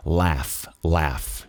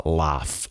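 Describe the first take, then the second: First: "Laugh" with a vowel nearer open E than A. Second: "laugh" with a British open A, like "láf". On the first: Teacher models laugh, not "lá" but "lé", open-E vowel. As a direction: say "Laugh" like "léf", lower and separate. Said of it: "mais pro é". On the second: Teacher contrasts the British pronunciation for students, open-A laugh. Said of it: "O britânico que fala laugh". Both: Shown as a demonstration.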